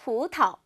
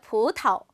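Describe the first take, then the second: No difference in how they are said.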